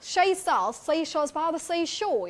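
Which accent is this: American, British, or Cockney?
Cockney. It is spoken in a Cockney accent. "if we talk about Cockney"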